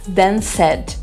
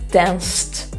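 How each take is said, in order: First: The ending is said as an extra syllable. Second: The ending adds no extra syllable. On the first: The speaker calls it wrong. "a gente tem mania de dizer ... E não é assim" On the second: The speaker calls it right. "prestar bem atenção nos sons do final"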